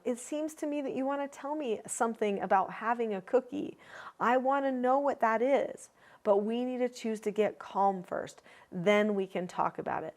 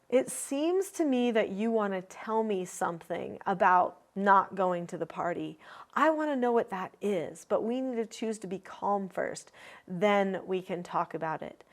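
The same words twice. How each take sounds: First: Put-on gentle, even voice for a small child; calm words to a young child. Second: Put-on steady, even, calm correction to a child; calm parent statement. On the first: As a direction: coax a little one calmly. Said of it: "So I might say to a younger child". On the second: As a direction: set the limit calmly and kindly. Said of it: "the most classic things that I would say". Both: Shown as a demonstration.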